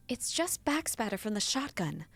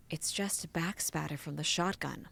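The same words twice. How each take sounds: First: Said in the usual way. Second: Calm him down gently; soothing. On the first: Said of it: "Oh, in her most soothing voice". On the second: Acted. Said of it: "in her most soothing voice".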